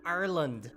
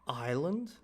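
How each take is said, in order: First: It is said with an Irish local pronunciation. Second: It is said with a standard non-Irish pronunciation. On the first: "so it is the local way of saying it" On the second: "Isn't it Ireland?"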